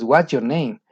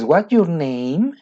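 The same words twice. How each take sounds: First: The voice falls at the end. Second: The voice rises at the end. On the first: The speaker calls it right. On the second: The speaker calls it wrong. "No es"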